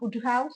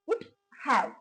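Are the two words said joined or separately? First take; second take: joined; separate. First: The two words are run together. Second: The two words are said separately. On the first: "இதை நம்ம சேர்த்தே சொல்லலாம்" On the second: "பிரிச்சு சொல்லும் போது"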